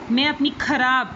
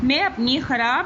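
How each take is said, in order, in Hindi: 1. kharab की शुरुआत एक महाप्राण k ध्वनि से होती है। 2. kharab की शुरुआत एक गले की संघर्षी kh ध्वनि से होती है। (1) "ऐसे नहीं होगा" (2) "खे के साथ"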